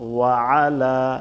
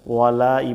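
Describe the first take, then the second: First: The throat consonant is kept between the words. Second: The throat consonant is dropped, merging the words. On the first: The speaker calls it right. "আইনটা বাদ দেওয়া যাবে না" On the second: The speaker calls it wrong. "এখানে আইনটা বাদ যাইতেছে"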